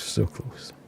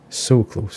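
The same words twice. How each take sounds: First: Breathy whispered regret. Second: Said in the usual way. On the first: Real, not acted. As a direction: whisper it to yourself, deflated. Near miss, repeated softly.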